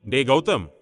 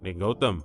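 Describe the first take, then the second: First: Anxious, urgent call; agitated. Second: Low, taken-aback call; shocked concern. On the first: Elder brother suspecting bad news on the phone, agitated. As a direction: call out with rising alarm. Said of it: "Siddharth பதற்றமானான்". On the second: Brother hearing Gautham cry on the phone, shocked concern. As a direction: call out lower, stunned by the crying. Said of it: "சித்தார்த்தும் அதிர்ந்து போனான்". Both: Acted.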